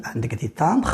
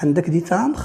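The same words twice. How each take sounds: First: Said in the usual way. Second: "تامبر" rising as a question; question intonation. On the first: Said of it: "سي اون فراز ديكلاراتيف". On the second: Shown as a demonstration. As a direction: ask it by lifting the end of "تامبر". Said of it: "غيرت فقط طريقة الصوت". (نبرة سؤال، مع رفع "تامبر")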